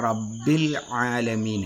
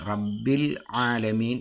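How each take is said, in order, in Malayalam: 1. രണ്ടാമത്തെ വാക്ക് തൊണ്ടയിൽ നിന്നുള്ള ശബ്ദത്തോടെയാണ് തുടങ്ങുന്നത്. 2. രണ്ടാമത്തെ വാക്ക് തൊണ്ടയിൽ നിന്നുള്ള ശബ്ദത്തോടെയാണ് തുടങ്ങുന്നത്.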